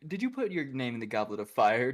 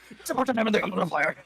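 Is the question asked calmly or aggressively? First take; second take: calmly; aggressively. First: It is asked calmly and quietly. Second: It is asked aggressively and loudly.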